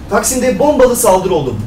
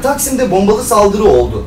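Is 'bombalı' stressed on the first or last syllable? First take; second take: first; last. First: The stress in 'bombalı' is on the first syllable. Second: The stress in 'bombalı' is on the last syllable. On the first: This is how news anchors say it. The speaker calls it wrong. "Hani boma. Normalde de genelde sona konulur vurgu" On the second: This is the normal way of saying it. The speaker calls it right.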